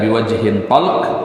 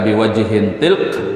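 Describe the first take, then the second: First: The vowel after the t is a. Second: The vowel after the t is i. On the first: "Bifathah bifathat uh, bifathatit ta" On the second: "atau dengan mengkasrahkannya"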